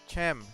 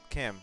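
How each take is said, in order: First: The name is said with a Spanish pronunciation. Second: The name is said with an English pronunciation. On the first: The speaker calls it right. "it's Chem" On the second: The speaker calls it wrong. "not Chem"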